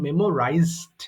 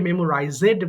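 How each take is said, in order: First: The ending adds no extra syllable. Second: The ending adds an extra syllable. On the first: The speaker calls it right. "এটা কিন্তু মেমোরাইজড" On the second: The speaker calls it wrong. "এটা ভুল করে অনেকে মেমোরাইজেড বলে"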